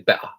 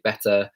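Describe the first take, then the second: First: The t sound is dropped. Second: The t sound is clearly pronounced. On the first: This is the casual way of speaking among friends. "If I was with my friends" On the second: This is the formal, professional way of speaking. "if I was in kind of like a professional environment"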